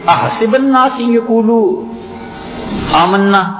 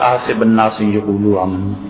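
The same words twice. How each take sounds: First: It is recited with expressive, questioning intonation. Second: It is recited flatly without expressive intonation. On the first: It asks whether saying we believe is enough. The speaker calls it right. "وہ جو پہلا ہے نا لہجہ، لہجہ بتاتا ہے کہ قرآن کہتا کیا ہے" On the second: The meaning of the words is lost. The speaker calls it wrong. "اسے یوں بھی پڑھا جا"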